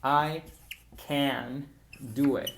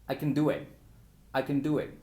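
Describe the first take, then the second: First: "can" spelled out slowly and fully; slow, emphatic full can; slow, careful. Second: "can" swallowed into "kn" in quick speech; fast reduced can. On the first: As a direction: stretch out "can do it" deliberately. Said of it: "cuando hablamos lento para dar énfasis". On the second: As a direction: run "I can do it" together fast with a weak "can". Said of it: "Cuando estamos hablando muy rápido". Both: Shown as a demonstration.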